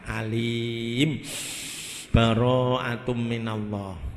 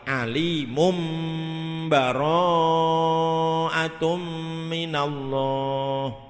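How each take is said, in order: First: The voice stops after the first word. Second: The first two words run together without stopping. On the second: "wasol dengan iklab"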